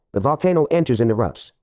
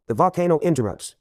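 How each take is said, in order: First: "enters and erupts" as separate, clear words; pun split apart. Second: Said in the usual way. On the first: Shown as a demonstration. Joke-teller explaining the volcano in other words, pun split apart. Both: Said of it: "In other words".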